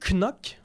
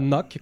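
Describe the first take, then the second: First: The name is pronounced the French way. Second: The name is pronounced like English knock. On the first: The speaker calls it right. "il faut prononcer Knock... c'est pas anglophone du tout" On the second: The speaker calls it wrong. "On s'attend à ce que ce soit Knock, comme cogné sur la table. Mais non"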